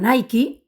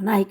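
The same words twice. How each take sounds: First: It is pronounced the original way. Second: It is pronounced the Spanish way. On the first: The speaker calls it right. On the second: The speaker calls it wrong.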